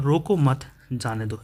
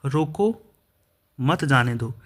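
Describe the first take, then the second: First: रोको मत together, brief pause, then जाने दो; slowly group रोको मत, then break before जाने दो; pause after मत. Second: रोको, long pause, then मत जाने दो together; pause after रोको. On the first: Teacher showing how punctuation changes meaning, pause after मत. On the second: Teacher showing how punctuation changes meaning, clear pause after रोको. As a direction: break the sentence right after रोको, leaving रोको hanging on a rise. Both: Shown as a demonstration. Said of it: "विराम चिन्ह का प्रयोग ना किया जाए".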